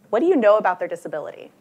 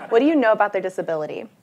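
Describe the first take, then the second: First: Said in the usual way. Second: Laughing. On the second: Real, not acted. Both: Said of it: "you don't have to shout this out".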